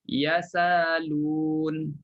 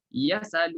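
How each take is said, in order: First: The hamzah becomes a long alif vowel. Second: The hamzah is dropped, its short vowel moves back. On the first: "Pertama, tukarkan hamzah jadi alif" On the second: "naqal, pindah baris... hamzah pun dibuang"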